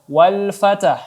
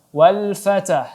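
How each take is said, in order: No difference in how they are said.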